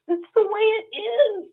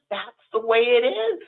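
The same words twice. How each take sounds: First: High, crying through the words; voice breaking into tears. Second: Said in the usual way. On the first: Real, not acted. Telling a friend how the congregation treated her, crying. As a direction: let the tears break the line.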